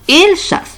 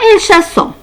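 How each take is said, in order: First: The ending is silent, with no nasal vowel. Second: The ending is pronounced as a nasal vowel. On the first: The speaker calls it right. "Parce que E N T ici, c'est une terminaison du verbe" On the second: The speaker calls it wrong. "Ce n'est pas elle chassant, non"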